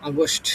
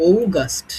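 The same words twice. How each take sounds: First: আগস্ট as "a-gost"; common Bengali pronunciation. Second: ঔগাস্ট opening on a long "ou"; corrected pronunciation. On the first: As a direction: open a first, then "-gost" in আগস্ট. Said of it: "অনেকে উচ্চারণ করি হচ্ছে". (আগস্ট প্রচলিত উচ্চারণে, "আ" দিয়ে) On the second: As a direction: draw out ou in ঔগাস্ট, then "-gast". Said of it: "উচ্চারণ হবে হচ্ছে ঔ". (ঔগাস্ট, শুরুতে লম্বা "ঔ") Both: Shown as a demonstration.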